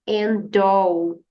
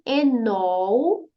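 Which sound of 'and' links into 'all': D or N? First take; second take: D; N. First: The D sound links straight into 'all'. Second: The N sound links straight into 'all'. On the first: "usar o som da letra D e emendar com o som da letra O" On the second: "você vai juntar a letra N, o som do N, né? Que é uma consoante, com a letra A de all"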